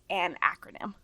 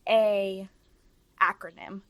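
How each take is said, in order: First: An 'n' sound links the article to 'acronym'. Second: The plain vowel 'a' runs straight into 'acronym'. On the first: The speaker calls it right. "it's an acronym" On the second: The speaker calls it wrong. "it's not a acronym"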